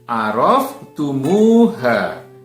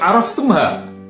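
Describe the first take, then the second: First: An extra u vowel comes between tum and ha. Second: Tum joins ha directly with no vowel between. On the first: The speaker calls it right. "tapi araftumuha" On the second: The speaker calls it wrong. "bukan araftumha"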